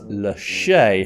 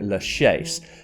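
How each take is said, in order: First: The final S sound is silent. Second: The final S sound is pronounced. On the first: This is how locals say it. "people in France, and specifically Paris, do refer to it as" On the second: This is how some tour guides say it. "pronounce the S and call it"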